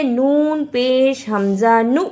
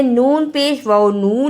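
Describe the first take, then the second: First: नु short, cut off by a hamza; hamza-stopped nu. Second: नू with a long oo and no hamza stop; wrong long nu. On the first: Teacher spelling the correct form, नु stopped short. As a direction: spell it out, ending on an abrupt नु. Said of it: "हमजा के ऊपर जज़म है". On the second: Teacher showing the mistake to avoid, नू with long oo. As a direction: read नू as waw, vowel stretched. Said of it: "इसे नून पेश वाव नू नहीं पढ़ना". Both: Shown as a demonstration.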